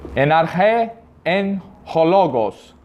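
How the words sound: It uses a reconstructed ancient Greek pronunciation. "na pronúncia clássica"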